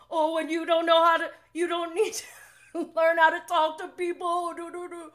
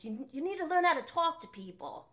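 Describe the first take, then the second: First: High, loud mocking parrot voice; imitating James. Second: Higher-pitched, bad Australian accent imitation; attempted Australian accent. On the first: Fan re-enacting James's comeback, loud high-pitched mockery. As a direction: mimic him mockingly, pitched way up. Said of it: "He's like". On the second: Fan quoting Brock from the show, shaky attempt at Australian accent. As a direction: have a poor go at an Australian accent. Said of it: "I can't really do the Australian accent".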